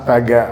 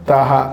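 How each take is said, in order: First: The middle consonant is a g sound. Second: The middle consonant is an h sound. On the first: This is how friends who could not say h called him. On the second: This is the name as it really is.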